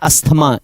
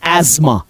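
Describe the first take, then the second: First: The middle has an s followed by a t sound. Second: The middle has a z sound with no t. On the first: This is how most people read it. The speaker calls it wrong. "इसको सब पढ़ते हैं अस्थमा" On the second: This is the correct pronunciation. The speaker calls it right. "It is एजमा"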